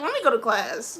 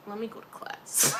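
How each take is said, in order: First: Loud, insistent acted exit line; exasperated, punched-up retelling; emphatic retreat. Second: Understated, about to break into laughter; amused retreat. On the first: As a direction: announce it loudly, wanting out. Retold escape, repeated emphatically. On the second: Retold or imitated. Retold escape, first take before laughing.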